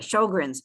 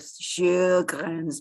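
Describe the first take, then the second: First: The name is said with an English pronunciation. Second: The name is said with a Swedish pronunciation. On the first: "but anyway, Sjögren's" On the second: "apologies to the Swedish where it would be sort of Sjögren's"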